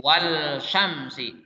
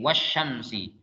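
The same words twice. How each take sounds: First: "Wal syamsi" slowly, with the l sounded, shown as the mistake; wrong reading. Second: "Wasyamsi" with no l, gliding straight into sh; right reading. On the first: Teacher demonstrates the wrong reading to pupils, slow and deliberate. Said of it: "Nggak boleh". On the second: Teacher gives pupils the correct reading, plainly. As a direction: say "Wasyamsi" with the alif lam silent. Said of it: "alif lamnya nggak dibaca". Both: Shown as a demonstration.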